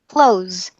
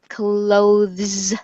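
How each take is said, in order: First: The 'th' is dropped, sounding like 'close'. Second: The 'th' sound is fully pronounced. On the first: "pronounce the word ... the same way as this word, clothes" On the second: "You can pronounce the full word clothes, clothes, like that"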